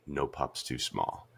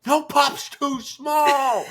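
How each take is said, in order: First: Low, slow and soft retold catchphrase; quiet resolve. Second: Very high, drawn-out hammed-up shout; fan battle cry. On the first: Retelling the heroine facing the giant meteor, quiet resolve. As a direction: say it slowly to yourself, low and hushed. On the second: Husband shouting the catchphrase every time he watches, high excited yell. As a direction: belt out the catchphrase slowly and high. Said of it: "Every time I'm like".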